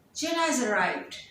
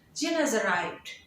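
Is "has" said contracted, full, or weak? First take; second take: weak; weak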